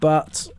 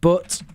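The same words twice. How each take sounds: First: The vowel is open and unrounded, like uh. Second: The vowel is rounded, like in look. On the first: "instead of but" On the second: "They'll say but"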